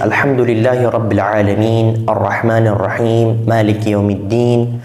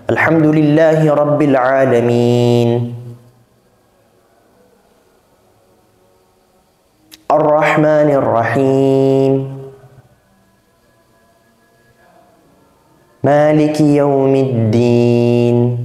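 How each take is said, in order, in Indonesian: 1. Ayat-ayatnya berjalan terus tanpa jeda di antaranya. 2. Ayat-ayatnya dipisahkan oleh jeda yang jelas terdengar. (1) "Itu harus segera" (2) "Gak boleh harus ada jeda di sana"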